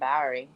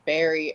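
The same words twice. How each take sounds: First: The name is said in a strong regional accent. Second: The name is said in a plain accent.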